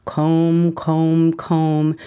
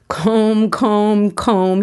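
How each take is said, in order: First: Chanted, lightly voiced sing-song teasing of each word comb; chanted, repeat each comb in a mild mock-annoying lilt. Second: Higher, louder gleeful repeat of comb; each comb higher and louder, egging her on; gleeful teasing. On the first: Son teasing mom while combing her tangles, mild annoying chant. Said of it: "he just laughs and says annoyingly". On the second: Retold or imitated. Son teasing mom again, higher louder gleeful chant. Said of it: "he laughs".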